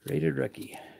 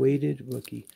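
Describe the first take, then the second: First: The first word begins with a clear R sound. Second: The first word begins with a W sound.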